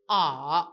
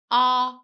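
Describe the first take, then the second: First: A dipping low with the hỏi tone; question tone. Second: A said level with no tone mark; the plain A sound, steady pitch; plain letter A. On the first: Teacher shows the question tone on A, dipping. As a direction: drop A down then curl it, dấu hỏi. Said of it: "With the question tone we have is". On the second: Teacher contrasts A with its question tone, plain. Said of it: "the first one is A". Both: Shown as a demonstration.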